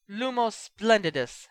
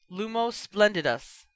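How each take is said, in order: First: Gritted teeth. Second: Quick spell. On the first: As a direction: spit Lumos splendidus out through clenched teeth. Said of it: "through obviously gritted teeth". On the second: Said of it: "Bill said quickly". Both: A narrator's reading.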